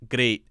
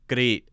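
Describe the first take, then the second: First: Great is said with a tapped r and ee vowel. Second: Great is said with a tapped r and ee vowel.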